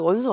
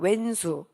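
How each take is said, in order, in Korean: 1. 첫 음절은 'won'으로 발음합니다. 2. 첫 음절은 'wen'으로 발음합니다.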